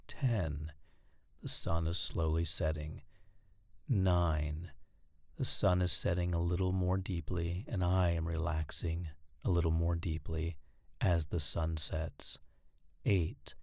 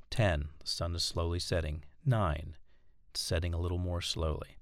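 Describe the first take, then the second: First: Slow, steady, lower hypnotic monotone with long pauses. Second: Said in the usual way. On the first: Shown as a demonstration. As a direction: lull the listener down like a droning teacher. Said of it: "you want to talk slowly and in a monotone voice". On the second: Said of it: "But you want to talk slowly and in a monotone voice".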